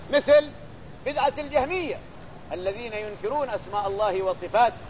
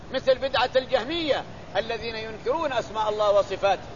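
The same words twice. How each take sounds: Both takes have the same delivery.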